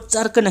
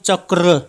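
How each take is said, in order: First: The r sound comes before the k. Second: The r sound comes after the k. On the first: The speaker calls it wrong. "इसको चर्क नहीं कहेंगे, चर्क कहेंगे तो र फिर आगे आ जाएगा।" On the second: The speaker calls it right. "तो र हमारा अंतिम में आ रहा है।"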